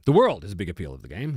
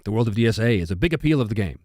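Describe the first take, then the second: First: "world" punched out, rest dropped low; stress on WORLD. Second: Said in the usual way. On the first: Real, not acted. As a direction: lean hard on the word "world". Repeats comment, stressing one word.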